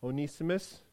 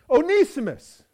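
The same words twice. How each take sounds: First: Stern. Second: High, loud furious cry of the name; angry shout. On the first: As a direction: call him to account. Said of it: "looks at me sternly". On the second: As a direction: roar his name in outrage. Master confronts returning runaway slave. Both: Acted.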